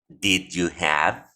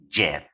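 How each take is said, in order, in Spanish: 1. Cada una de las tres palabras se dice por separado. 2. Las tres palabras se funden en una sola sílaba corta. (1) "Nosotros esperamos que los nativos nos pronuncien estas tres palabras de la siguiente manera" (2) "las contraen y las reducen y solamente queda esto"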